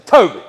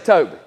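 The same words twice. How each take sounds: First: The name is said in a harsh, stern tone. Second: The name is said in a warm, reassuring tone. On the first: The listener feels disapproved of. "that's not what he's waiting for" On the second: The listener feels reassured and welcome. "immediately his ears perk up and his tail starts wagging"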